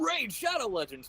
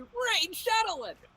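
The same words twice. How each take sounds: First: The voice is low and deep. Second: The voice is higher and sped up.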